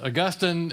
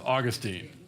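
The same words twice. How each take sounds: First: It is pronounced the way the saint's name is. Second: It is pronounced the way the city's name is. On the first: It names the saint. "the saint is Augustine" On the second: It names the city in Florida. "the city is Augustine"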